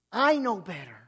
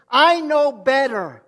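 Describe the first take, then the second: First: Said in the usual way. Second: Loud, slow mock boast; proud boast. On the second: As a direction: shout it out like a proud know-it-all. Mocking proud self-reliant believer.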